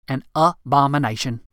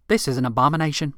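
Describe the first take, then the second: First: "abomination" broken up as "A-BOMINATION", first syllable set apart; emphatic abomination. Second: Said in the usual way. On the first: Acted. Rick condemns Marilyn to Jimmy, hammering "abomination".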